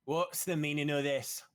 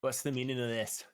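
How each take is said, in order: First: Loud, slow and piercing; commanding knight's call over a crowd. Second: Loud, stern demand; a hint of a stern commander; stern woman knight silencing a crowd. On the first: Acted. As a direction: cut through the crowd with authority. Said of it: "you hear a piercing voice". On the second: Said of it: "and she says".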